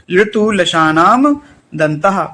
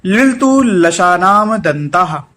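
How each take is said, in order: First: Said in the usual way. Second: Slow recitation. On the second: Shown as a demonstration. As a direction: slowly recite लिलतु लशानाम दंताः for students. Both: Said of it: "अगला सूत्र है".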